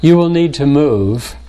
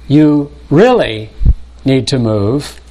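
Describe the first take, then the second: First: Said in the usual way. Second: Slow, pressing "you really need to move" with "really" stretched; stress on really. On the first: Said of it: "the difference between". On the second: Shown as a demonstration. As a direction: lean hard on "really" before "need to move". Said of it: "Note, for example, the difference".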